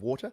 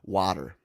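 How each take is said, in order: First: The word is said in a non-American accent. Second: The word is said in an American accent. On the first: Listeners in the US struggled to understand it. "my pronunciation of water" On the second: Listeners in the US understand it. "change my pronunciation of water to water"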